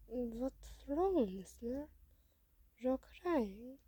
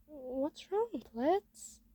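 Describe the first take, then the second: First: Put-on lightly accented, concerned question; a hint of a foreign robot voice; concerned robot character. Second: Higher, rising question to a friend; lightly acted concern, pitched up. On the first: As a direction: ask gently in a put-on accent. Robot asks the crying listener. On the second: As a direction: ask what's wrong, lifting at the end. Listener asks the crying robot. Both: A narrator's reading.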